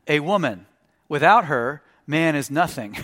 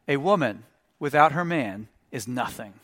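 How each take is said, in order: First: It has pauses after woman and after her. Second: It is said straight through without pauses.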